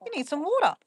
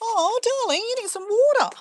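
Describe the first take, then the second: First: Said in the usual way. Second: High sweet voice to the chicken; pet talk. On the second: Real, not acted. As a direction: coo at the pet lovingly. Talking to thirsty chicken.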